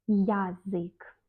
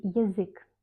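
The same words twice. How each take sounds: First: "язык" with a full clear ya, ya-ZYK; wrong spelling pronunciation. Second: "язык" starting ye, between i and ye; reduced unstressed vowel. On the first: Teacher showing what not to say, "язык" as yazyk. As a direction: give "язык" an open "ya". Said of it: "On ne dit pas". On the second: Teacher showing what one says, "язык" as yizyk. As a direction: say "язык" as yi-ZYK. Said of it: "On dit язык". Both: Shown as a demonstration.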